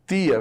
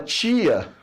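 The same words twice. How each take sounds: First: The tongue touches behind the teeth for t. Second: The tongue rises higher for the t sound. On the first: "vê que a língua está encostando onde? Ao réu, né? Na parte de trás dos seus dentes" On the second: "percebe que a língua sobe?"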